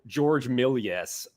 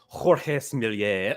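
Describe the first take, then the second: First: The name is said with an American pronunciation. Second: The name is said with a French pronunciation. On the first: "you could do like the the American" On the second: "whatever it would be for the Frenchman"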